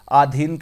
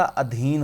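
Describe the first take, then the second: First: आधीन with a long opening aa; wrong long vowel. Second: अधीन with a short opening a; correct short vowel. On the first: Teacher rejecting the wrong spelling, long first vowel. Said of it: "नहीं होता". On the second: Teacher giving the correct spelling, short first vowel. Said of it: "अधीन होता है". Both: Shown as a demonstration.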